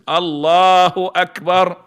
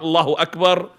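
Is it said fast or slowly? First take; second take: slowly; fast. First: It is said slowly and fully. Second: It is said quickly and rushed.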